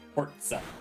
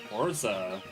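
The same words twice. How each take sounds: First: The middle consonant is a ts sound. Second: The middle consonant is a plain z sound. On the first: The speaker calls it right. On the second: The speaker calls it wrong.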